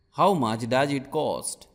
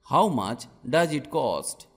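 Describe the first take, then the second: No difference in how they are said.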